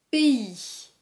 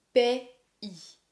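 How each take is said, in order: First: Said in the usual way. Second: "Pays" broken into "pè... i"; syllable by syllable. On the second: Shown as a demonstration. Teacher showing learners both vowels, syllable by syllable. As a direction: say "Pays" as two sounds with a pause between. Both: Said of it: "qui a le son I".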